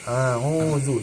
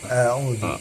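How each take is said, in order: First: The opening hamzah is said thick and heavy. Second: The opening hamzah is said thin and light. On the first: The speaker calls it wrong. "Jangan sampai keliru. A'udzu jadi tebal ya" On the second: The speaker calls it right. "Itu harus ditipiskan"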